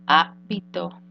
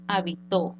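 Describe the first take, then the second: First: "habitó" said as HÁ-bi-to, first syllable stressed. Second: "habitó" said as ha-bi-TÓ, last syllable stressed. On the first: Teacher contrasting word meanings, "habitó" stressed on first syllable HÁ. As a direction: punch HA in "habitó", let the rest drop. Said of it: "la vamos a nombrar esdrújula". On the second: Teacher showing the past tense, "habitó" stressed on final TÓ. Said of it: "tiempo pasado". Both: Shown as a demonstration.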